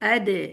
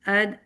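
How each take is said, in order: First: The final d is strong with an echoing bounce. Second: The final d is weak and air escapes. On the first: The speaker calls it right. "ठीक है" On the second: The speaker calls it wrong. "अगर आप ताकत के साथ नहीं लगाते अद अद ऐसे हो जाता है"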